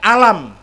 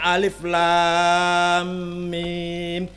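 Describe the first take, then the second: First: It is read as one short word. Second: It is read as long letter names. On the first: The speaker calls it wrong. "saya baca alam" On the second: The speaker calls it right. "Bacanya alif lam mim. ... Kudu diwaca dawa"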